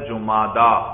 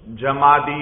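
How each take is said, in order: First: The word ends with a long 'aa' sound. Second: The word ends with an 'ee' sound. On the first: The speaker calls it right. "جمادہ دال پر کھڑی زبر ہے" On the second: The speaker calls it wrong. "یہ غلط ہے بھائی"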